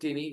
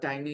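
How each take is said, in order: First: The first vowel sounds like 'ee'. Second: The first vowel sounds like 'eye'. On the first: "Some people also pronounce it teeny, which is okay" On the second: "tiny is more common pronunciation"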